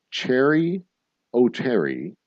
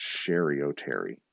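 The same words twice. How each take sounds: First: "Cherry" said with a ch sound, as in cherry; "Cherry O'Terry" starting with a hard ch; misread name. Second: "Sherry" said with a soft sh sound; "Sherry O'Terry" starting with sh, as in shoe; corrected name. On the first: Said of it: "I think it's pronounced Sherry O'Terry". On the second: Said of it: "I think it's pronounced". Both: Shown as a demonstration.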